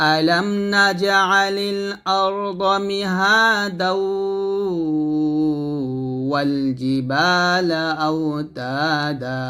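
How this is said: Mihada joins straight onto the next word. "আর যদি মিলাই পড়ি তাহলে হবে এরকম"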